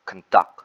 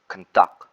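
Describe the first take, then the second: First: The stress is on the second syllable. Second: The same.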